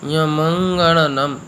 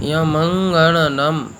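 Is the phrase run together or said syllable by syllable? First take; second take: syllable by syllable; syllable by syllable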